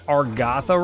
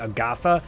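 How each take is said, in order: First: An r sound follows the first vowel. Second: No r sound follows the first vowel. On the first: The speaker calls it wrong. "I don't say Argatha right" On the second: The speaker calls it right. "It's A G, Agatha"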